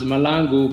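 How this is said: The name is said the American way.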